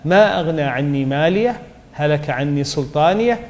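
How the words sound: There is a stop after 'maliyah'. "عند الوقف"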